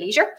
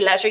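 First: It is said the American way. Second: It is said in the speaker's non-American accent.

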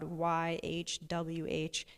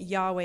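First: The name sounds like a breathy exhale. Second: The name is spoken aloud with full vowels. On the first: "it just sounds like this. It's a breath" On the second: "we've added vowels into it to try and make it sound like a word"

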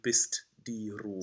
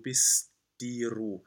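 First: The t and d are both clearly released. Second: The t and d merge into one held sound. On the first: The speaker calls it wrong. "We don't need bist die Ruhe" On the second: The speaker calls it right. "we combine to one sound"

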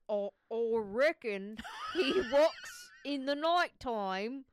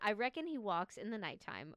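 First: It is spoken in a put-on foreign accent. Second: It is spoken in the speaker's normal accent. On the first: "I'm terrible at accents" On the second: "Do you want me doing the voice again?"

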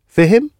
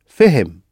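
First: The voice rises at the end. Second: The voice falls at the end.

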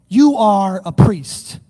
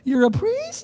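First: The voice falls at the end, like a statement. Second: The voice rises high at the end, like a question.

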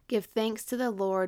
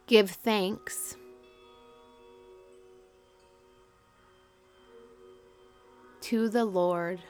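First: It is read at a normal pace. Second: It is read slowly and deliberately.

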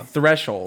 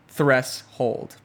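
First: The sh runs into 'old' with no h. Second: An h sound is heard before 'old'. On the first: "you shouldn't pronounce the h in hold" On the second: "Or threshold"

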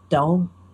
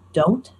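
First: The final T is dropped. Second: The final T is clearly pronounced. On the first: "more like don't, like without that hard T at the end" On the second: "any word that ends in a T, like don't"

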